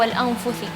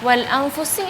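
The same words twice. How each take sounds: First: The word has a th sound before the end. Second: The word has an s sound before the end. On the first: The speaker calls it wrong. "Sin atau tha?" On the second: The speaker calls it right. "Sin atau tha? Sin"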